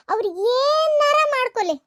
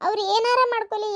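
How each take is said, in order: First: ಏನಾರ stretched long and pitched high; slow, higher emphasis on a drawn-out ಏನಾರ; stress on ಏನಾರ. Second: Said in the usual way. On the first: Acted. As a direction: draw out ಏನಾರ, rising high, then fall away. Emphatic repeat, washing hands of them.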